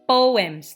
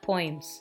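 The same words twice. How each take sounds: First: The word is said with two syllables. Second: The word is said with one syllable. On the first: The speaker calls it right. "We read the word poems, It's a two-syllable word" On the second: The speaker calls it wrong. "not poems"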